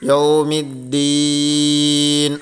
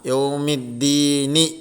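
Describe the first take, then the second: First: The word ends on a bare n sound. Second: The word ends with a short i vowel. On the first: The reader stops at this word. "സുക്കൂന്മലാണ് നിർത്തേണ്ടത്. അപ്പോൾ എങ്ങനെ നിർത്തി?" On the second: The reading continues without stopping. "കെസറാണ് ഇവിടെ ഉള്ളത്"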